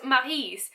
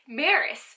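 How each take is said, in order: First: The name is said with a French pronunciation. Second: The name is said with an English pronunciation. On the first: "in French, it would be pronounced Maryse" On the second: "I never pronounced it like that in my head"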